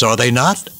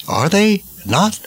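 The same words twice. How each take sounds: First: Said in the usual way. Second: Are they not? pitched higher with a strong rise on they; emphatic repeat. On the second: Acted. Commentator pressing listeners on the end times, emphatic higher repeat.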